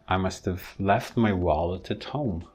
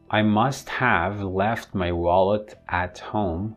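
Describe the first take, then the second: First: The small words are reduced, and it is faster. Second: The small words are said in full forms, slowly. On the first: "I'm going to use the weak form. So imagine this would be a faster version" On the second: "if I pronounce it the first way"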